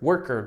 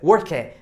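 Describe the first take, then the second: First: The ending is a murky, r-colored 'er' sound. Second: The ending is an open, Portuguese-style 'er'. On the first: The speaker calls it right. "Não, é er, tá? Você fala er" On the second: The speaker calls it wrong. "Porque muita gente pronuncia worker"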